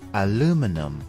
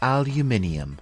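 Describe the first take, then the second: First: It is said the American way, four syllables. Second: It is said the British way, five syllables. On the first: "The American English pronunciation" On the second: "in British English"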